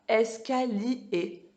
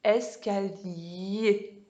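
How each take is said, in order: First: ESCALIER split as es-ka-li-é, no glide; syllables split apart. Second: ESCALIER slowly, ending in a long gliding y-é; glided yé ending. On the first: Teacher showing children the wrong reading, ESCALIER split as li-é. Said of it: "vous dites pas escalier". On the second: Teacher showing children the correct reading, ESCALIER with gliding yé. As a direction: draw out the y sound joining li to é in ESCALIER. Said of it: "on dit escalier. On fait le I E". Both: Shown as a demonstration.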